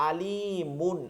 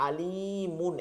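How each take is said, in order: No difference in how they are said.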